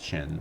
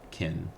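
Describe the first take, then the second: First: It begins with the same sound as China. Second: It begins with a sound unlike China's. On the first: The speaker calls it right. "the name China comes from Qin, which is why I'm pronouncing it like Qin" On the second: The speaker calls it wrong. "and not Qin"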